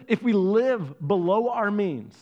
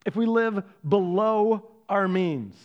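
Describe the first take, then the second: First: Said in the usual way. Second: BELOW drawn out and set apart by pauses; slow right down and hold the word "below"; stress on BELOW. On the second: Real, not acted. Preacher repeats the rule to his congregation, BELOW stretched out.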